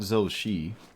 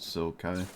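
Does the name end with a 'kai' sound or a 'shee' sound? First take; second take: shee; kai. First: The name ends with a 'shee' sound. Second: The name ends with a 'kai' sound. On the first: The speaker calls it wrong. "It's not Zoshi" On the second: The speaker calls it right. "It's just Zokai"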